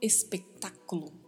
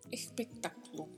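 First: The S sounds like a plain S. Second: The S sounds like a soft R. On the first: The speaker calls it wrong. "Não se fala espetáculo" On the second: The speaker calls it right. "Essa letra S tem um som bem suave de R"

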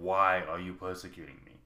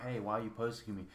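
First: It is said in a thundering, commanding voice. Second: It is said softly, like a plea.

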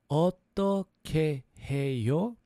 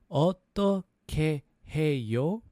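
Both takes have the same delivery.

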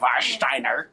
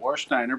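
First: The name begins with a V sound. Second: The name begins with a W sound. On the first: This is how German speakers say it. "if you're German, you call it" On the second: This is the common non-German way of saying it. "A lot of people I hear call it"

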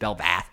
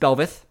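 First: The last syllable is said as 'vath'. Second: The last syllable is said as 'veth'. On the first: The speaker calls it wrong. "I was actually saying Belvath a lot" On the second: The speaker calls it right. "It's Belveth, I'm pretty sure"

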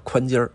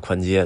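First: The last syllable ends with r-coloring. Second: The last syllable ends without r-coloring. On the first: The speaker calls it right. "我们就叫宽街儿" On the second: The speaker calls it wrong. "没有叫宽街的"

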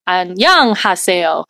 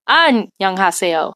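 First: The second syllable is stressed. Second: The first syllable is stressed.

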